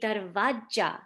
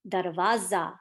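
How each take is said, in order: First: The last consonant is a j sound. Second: The last consonant is a z sound. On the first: The speaker calls it wrong. "they replace it with a j sound, like January. So they say darvaja" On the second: The speaker calls it right. "the correct pronunciation is darvaza, like za, like zebra"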